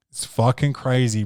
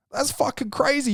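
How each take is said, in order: First: Said in the usual way. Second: High-pitched, amazed cry of disbelief; squeaky shocked exclamation; incredulous outburst. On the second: Real, not acted. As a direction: shoot the pitch way up in outrage. Indignant outburst, then calm repeat.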